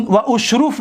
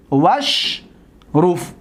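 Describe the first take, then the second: First: «و اشروف» with the hamza sounded, wa ushruf; unjoined wa-ushruf. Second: «وشروف» as wash-ruf, no alif; very slow «وشروف», held on wash, then ruf; joined washruf. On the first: Teacher shows the reading to reject, «و اشروف» as wa ushruf. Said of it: "نه". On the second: Teacher shows the silent alif, «وشروف» joined as wash-ruf. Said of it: "این را ساکن". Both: Shown as a demonstration.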